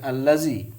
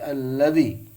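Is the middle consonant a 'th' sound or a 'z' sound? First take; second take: z sound; th sound. First: The middle consonant is a plain z sound. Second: The middle consonant is a voiced 'th' sound. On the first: The speaker calls it wrong. "bukan allazi" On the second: The speaker calls it right. "dal besar bukan allazi tapi alladzi"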